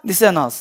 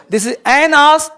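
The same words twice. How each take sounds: First: "this is an ass" said softer with the linking kept; soft linked repeat. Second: "This is an ass" with ass lifted and run into an; linked an-ass. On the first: Teacher repeating the drill quietly for students. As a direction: drop the voice and glide "an ass" together. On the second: Teacher drilling students, linked and clear. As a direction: link "an ass" smoothly, ending a touch higher. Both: Shown as a demonstration. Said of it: "समझ बात को?".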